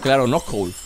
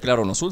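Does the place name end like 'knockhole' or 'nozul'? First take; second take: knockhole; nozul. First: The name is said as 'knockhole'. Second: The name is said as 'nozul'. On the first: The speaker calls it right. "se pronuncia claro knockhole" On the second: The speaker calls it wrong. "dicen el claro nozul, pero según yo, no se pronuncia claro nozul"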